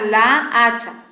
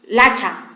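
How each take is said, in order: First: The two a-sounds are kept apart. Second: The two a-sounds merge into one syllable. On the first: "no suena la hacha" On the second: "Lacha, no suena la hacha"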